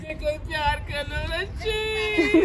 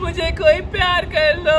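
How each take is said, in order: First: Higher, softer hammed-up sob-whine; mock crying. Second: Higher, louder mock-whiny shout begging for love; fake pleading. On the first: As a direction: fake tears to win the toddler. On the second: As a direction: ham up a jealous dad's plea. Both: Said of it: "नकली acting ना करो आप".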